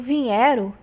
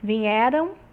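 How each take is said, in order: First: The nasal sound is in the first syllable. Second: The nasal sound is in the last syllable. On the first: "essa nasalização da última sílaba, vai passar para a primeira sílaba" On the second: "essa nasalização da última sílaba"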